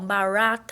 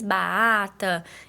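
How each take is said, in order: First: The r sound is distorted and unclear. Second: The r sound is left out entirely. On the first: "Ou ela faz a distorção do som" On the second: "Ou ela faz a omissão"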